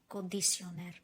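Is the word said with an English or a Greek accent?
Greek. It is said with a Greek accent. "we pronounce it a little bit different"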